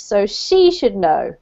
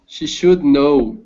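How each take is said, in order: First: She said stronger, should and know lighter; stress on she. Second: Should said stronger, she lighter; stress on should. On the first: Shown as a demonstration. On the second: Real, not acted. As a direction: She should know with the weight on SHOULD. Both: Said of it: "you put the emphasis on the, the person in this case".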